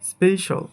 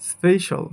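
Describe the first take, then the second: Both takes have the same delivery.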